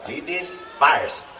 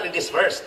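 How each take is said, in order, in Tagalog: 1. Ang patinig sa first ay tunog na 'eye'. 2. Ang patinig sa first ay tunog na 'er'. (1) "Ang sakto pa-pronounce na" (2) "Dili na ladies first"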